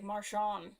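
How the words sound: The name is pronounced in a French-like way. "I was going like French with it"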